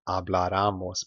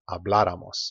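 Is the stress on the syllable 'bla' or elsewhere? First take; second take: elsewhere; bla. First: The stress falls on a syllable other than 'bla'. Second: The stress falls on the syllable 'bla'. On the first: The speaker calls it wrong. "not habláramos" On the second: The speaker calls it right. "but habláramos. Make sure you stress there"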